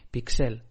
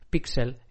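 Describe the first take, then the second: First: The stress is on the last syllable. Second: The stress is on the first syllable. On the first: "como palabra aguda" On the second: "como una palabra eh, llana"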